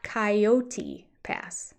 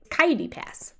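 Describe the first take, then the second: First: Coyote said in three clear syllables, kai-o-tee, slowly; full three syllables. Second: Coyote said as two syllables, kaidi, clipped; imitating Cody. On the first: Shown as a demonstration. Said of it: "but not coyote pass". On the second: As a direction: say Coyote Pass quickly as kai-dee pass. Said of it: "It's kitey".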